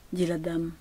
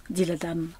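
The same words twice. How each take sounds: The two takes are said the same way.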